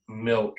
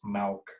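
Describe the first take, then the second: First: The vowel is a short 'i' sound. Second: The vowel sounds close to an 'a'. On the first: "instead of"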